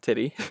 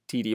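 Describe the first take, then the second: First: The word sounds like 'titty'. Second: The word sounds like 'tee-tee'. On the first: The speaker calls it wrong. "not titty" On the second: The speaker calls it right. "That's how you say it"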